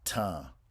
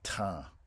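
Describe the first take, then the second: The two takes are said the same way.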